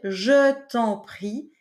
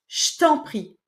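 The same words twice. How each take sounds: First: Every syllable is said fully and carefully. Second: The syllables are squeezed together in casual speech. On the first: The speaker calls it wrong. "je ne vais pas dire" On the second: The speaker calls it right. "mais je vais dire"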